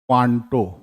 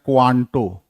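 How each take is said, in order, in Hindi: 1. शब्द की शुरुआत गोल होंठों वाली 'kwan' ध्वनि से होती है। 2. शब्द की शुरुआत गोल होंठों वाली 'kwan' ध्वनि से होती है।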